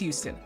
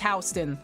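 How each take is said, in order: First: Houston is pronounced the Texas way. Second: Houston is pronounced the New York way. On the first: It names the city in Texas. "Texas Houston is Houston" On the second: It names a place in New York. "New York says Houston"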